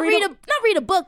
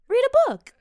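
First: It is said in a scornful, shaming tone. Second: It is said in a warm, friendly tone. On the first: It is meant as an insult. The speaker calls it wrong. "I'm not going to shame you" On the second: It is meant as a kind invitation. The speaker calls it right. "It's more of an invitation"

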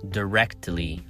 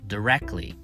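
First: The T sound is clearly pronounced. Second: The T sound is dropped. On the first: The speaker calls it wrong. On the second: The speaker calls it right.

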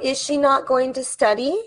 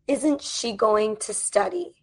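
First: The negative is said as a separate full word. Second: The negative is contracted onto the verb.

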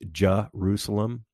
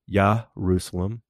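First: The word begins with a J sound. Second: The word begins with a Y sound.

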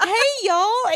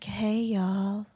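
First: It is said in a plain, normal way. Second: It is said in a sexy, suggestive way.

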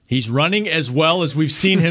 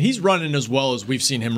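First: It is said loudly and with strong conviction. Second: It is said in an ordinary, casual tone.

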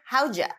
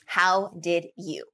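First: The words are run together and reduced. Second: Each word is said fully and separately.

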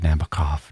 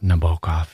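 First: The name is said with an English pronunciation. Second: The name is said as its owner said it. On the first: This is how English readers say it. "They had Nabokov" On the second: This is how the author said it. "Nabokov himself can have his version"

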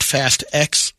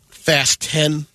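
First: The last word is said as the letter 'ex'. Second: The last word is said as 'ten'. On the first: The speaker calls it wrong. "not Fast X" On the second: The speaker calls it right.

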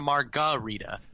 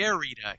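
First: The second syllable has an A vowel. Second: The second syllable has an E vowel. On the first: The speaker calls it wrong. "It's not a margarita" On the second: The speaker calls it right. "It's a margarita. ... It's E"

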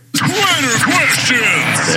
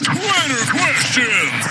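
First: It is said loudly. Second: It is said fairly quietly.

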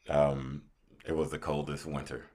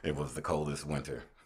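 First: It is said in a deep dramatic narrator voice. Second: It is said in a casual everyday voice. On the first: The speaker calls it right. "Do it in your professional voice" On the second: The speaker calls it wrong. "That wasn't serious"

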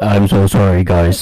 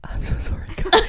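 First: It is said very loudly. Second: It is whispered.

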